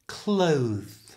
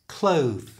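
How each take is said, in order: First: It is said slowly and exaggerated. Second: It is said at normal conversational speed. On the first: "slowly and exaggerated" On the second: "And now at normal speed"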